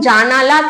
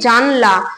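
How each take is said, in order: First: A vowel sound comes between 'jan' and 'la'. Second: No vowel sound comes between 'jan' and 'la'.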